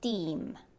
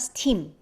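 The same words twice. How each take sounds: First: The t is tense, without a puff of air. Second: The t is said with a puff of air. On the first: The speaker calls it right. "it's steam. So try to do that steam, da, da sound" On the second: The speaker calls it wrong. "It's not steam"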